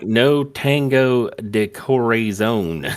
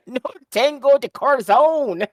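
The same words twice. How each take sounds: First: Slow, exaggerated bad Spanish accent. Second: Put-on much higher, louder hammy Spanish accent; bad Spanish accent. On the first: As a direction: drag it out in a terrible Spanish accent. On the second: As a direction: belt it in an awful Spanish accent. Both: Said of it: "in the worst Spanish accent ever".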